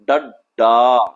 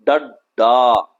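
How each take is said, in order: Both takes have the same delivery.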